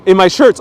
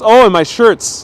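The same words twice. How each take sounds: First: Loud, raised questioning echo; puzzled echo. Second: Loud, raised "oh, I get it"; the penny drops, higher and louder; sudden realization. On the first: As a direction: repeat it back as a question, rising at the end. Puzzled echo of viewer's comment. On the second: Realizes the comment said shirts. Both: Real, not acted.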